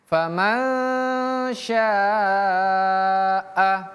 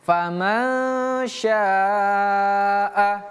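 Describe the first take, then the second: The two takes are said the same way.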